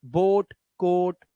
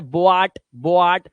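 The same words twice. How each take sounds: First: बोट said slowly with a single o; correct pure o. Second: बोआट with a separate आ sound, bo-aat; the wrong way: बोआट said with o and a apart; wrong two-vowel reading. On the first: Teacher shows pupils the right reading, slow बोट with a single o. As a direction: stretch बोट and कोट, only the o. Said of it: "सिर्फ ओ ही देना". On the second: Teacher shows pupils the wrong reading, बोआट with o and a apart. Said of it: "तो इसे ओआ नहीं करना है". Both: Shown as a demonstration.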